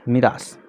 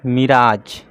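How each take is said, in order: First: The word ends with an 's' sound. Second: The word ends with a 'j' sound. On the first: The speaker calls it right. "ऐसा है मी रा स, ये आधा स है" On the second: The speaker calls it wrong. "इसका मतलब आप ऐसा पढ़ेंगे मिराज ... लेकिन ऐसा नहीं है"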